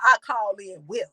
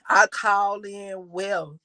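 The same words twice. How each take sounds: First: It is said forcefully, with lively energy. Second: It is said flatly, with low energy. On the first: The speaker means what they say. The speaker calls it right. "You better say that with an attitude" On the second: The speaker does not really believe it. The speaker calls it wrong. "you about to put me to sleep over there with that sad ass uh, affirmation"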